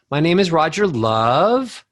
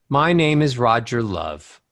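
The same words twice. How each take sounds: First: LOVE slides up like a question; valley-talk rise at the end on "Love"; uptalk scoop. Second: Tune falls away to a low LOVE; descending melody. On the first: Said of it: "you scoop". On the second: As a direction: step down through the name to a low "Love". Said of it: "Descending melodies". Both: Shown as a demonstration.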